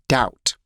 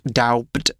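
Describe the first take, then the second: First: No b sound is pronounced before the t. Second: A b sound is pronounced before the t. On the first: The speaker calls it right. "we don't pronounce the B" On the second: The speaker calls it wrong. "It's not doubt"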